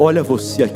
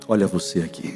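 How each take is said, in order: First: It is said the loudest of all. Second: It is said at normal volume.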